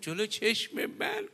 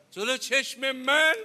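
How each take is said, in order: First: Stricken disbelief. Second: High, loud, drawn-out question; retold cry of a daughter's disbelief; stricken disbelief. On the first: Retold or imitated. Daughter's shocked question repeated. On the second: Daughter asks father about what she will witness, stricken.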